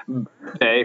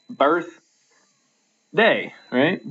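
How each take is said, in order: First: Said in the usual way. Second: Birth said high and drawn out, then a pause before day; stress on BIRTH. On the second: Shown as a demonstration. Teacher showing the class where the stress falls, Birth stressed. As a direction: split it slowly as Birth, pause, day, leaning on Birth. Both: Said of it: "The stress is on birth right there".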